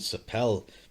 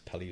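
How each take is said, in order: First: The word ends on a consonant sound. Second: The word ends on a vowel sound. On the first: The speaker calls it wrong. "I was calling Sapel" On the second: The speaker calls it right. "it's got like the e on the end"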